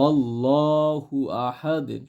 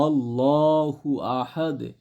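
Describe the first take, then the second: Both takes have the same delivery.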